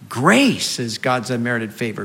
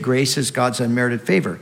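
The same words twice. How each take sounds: First: The stress is on grace. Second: The stress is on unmerited.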